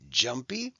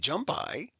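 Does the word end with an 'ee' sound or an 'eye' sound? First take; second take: ee; eye. First: The final y sounds like 'ee'. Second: The final y sounds like 'eye'. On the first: The speaker calls it right. "it now usually sounds like an E" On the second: The speaker calls it wrong. "We don't say"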